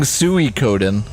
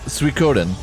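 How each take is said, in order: First: The first part is split into two syllables. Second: The first part is said as one syllable. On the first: "I'm not saying Suikoden" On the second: "it's more like a single syllable, not two"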